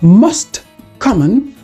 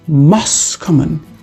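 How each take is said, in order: First: The t at the end of most is pronounced. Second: The t at the end of most is dropped.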